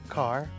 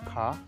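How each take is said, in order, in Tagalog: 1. Binibigkas ang huling tunog ng R. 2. Hindi binibigkas ang huling tunog ng R.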